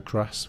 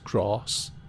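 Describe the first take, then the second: First: The vowel is short, with no r sound. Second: The vowel is long, like 'grarss'. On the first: The speaker calls it right. "the proper way of saying grass in the U K" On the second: The speaker calls it wrong. "where they put an extra R in it"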